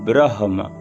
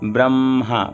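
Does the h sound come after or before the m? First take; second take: before; after. First: The h sound comes before the m. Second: The h sound comes after the m. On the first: The speaker calls it right. "पहले ब्र फिर हा फिर म, ... शुद्ध उच्चारण ये है" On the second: The speaker calls it wrong. "पहले ब्र फिर म फिर हा, ये गलत उच्चारण है।"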